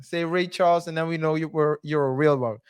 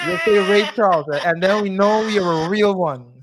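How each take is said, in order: First: Said in the usual way. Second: Laughing excitement. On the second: Real, not acted. Repeating the joke keyword.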